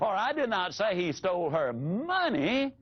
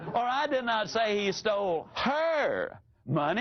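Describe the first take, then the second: First: The stress is on the word money. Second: The stress is on the word her.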